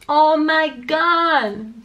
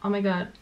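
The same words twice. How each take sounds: First: The melody goes up and down, English-style. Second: The melody stays flat, French-style.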